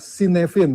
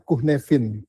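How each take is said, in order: First: It is read the way it is spelled. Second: It is pronounced the Welsh way. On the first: "tulisannya Cynefin" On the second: "dibacanya Cynefin karena bahasanya bahasa Wales"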